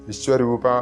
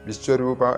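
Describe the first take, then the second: The two takes are said the same way.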